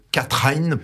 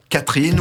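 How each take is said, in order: First: Catherine said the Dutch way, ending like "katran"; Dutch pronunciation. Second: Said in the usual way. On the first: Shown as a demonstration. Author correcting the title to its Dutch pronunciation. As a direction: give Catherine its Dutch sound. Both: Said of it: "j'ai pas trop l'accent d'Amsterdam".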